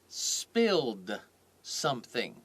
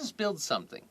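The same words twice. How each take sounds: First: The words are said slowly and kept apart. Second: The words are said quickly and run together. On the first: "I said it slowly" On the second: "It all goes together"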